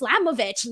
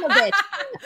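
First: It is said plainly, with little intensity. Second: It is said with strong, forceful intensity.

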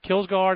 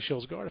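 First: The name is said with an English pronunciation. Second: The name is said with a Swedish pronunciation. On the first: The speaker calls it wrong. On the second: The speaker calls it right.

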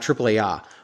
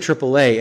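First: The letters are read out in Spanish. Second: The letters are read out in English. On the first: The speaker calls it wrong. "and not AAA" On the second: The speaker calls it right. "you're saying AAA"

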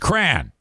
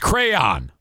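First: The word is reduced to one syllable. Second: The word is said with two full syllables. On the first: The speaker calls it right. "No, it's not. It's crayon. That is pronounced cran" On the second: The speaker calls it wrong. "He says it's crayon"

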